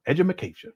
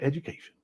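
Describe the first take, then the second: First: Edumacation, with an extra ma syllable slipped into education; mock mispronunciation. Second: Said in the usual way. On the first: Shown as a demonstration. Mocking a viewer's word, says education as edumacation. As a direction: say edumacation as a jokey dumb-sounding version of education.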